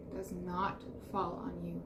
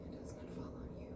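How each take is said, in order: First: Said in the usual way. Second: Soft breathy whispered reassurance. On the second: Shown as a demonstration. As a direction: whisper it like a secret comfort. Repeats line in whisper then plain.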